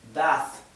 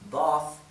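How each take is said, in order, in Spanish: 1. Se dice con acento americano. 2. Se dice con acento británico.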